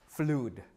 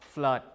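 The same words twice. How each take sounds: First: The vowel is a long oo sound. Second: The vowel is a short schwa-like uh. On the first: This is the form expected from the earlier sound change. The speaker calls it wrong. "We don't pronounce it as flood, ... theoretically speaking it should be" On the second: This is how the word is said today. The speaker calls it right. "nowadays we pronounce it as flood like this"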